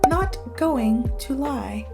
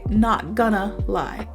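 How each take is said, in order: First: 'Going to' is said in full, carefully. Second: 'Going to' is reduced to 'gonna'. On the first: It sounds formal and proper. "you can be prim and proper and be like" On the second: It sounds casual and everyday. "a lot of times we just say"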